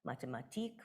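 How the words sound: The word is said with Hanover German stress. "Hanover German and Austrian German differ"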